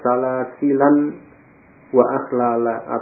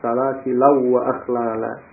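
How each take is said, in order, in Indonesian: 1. Huruf n diucapkan sebelum w. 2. Huruf n menyatu dengan w setelahnya.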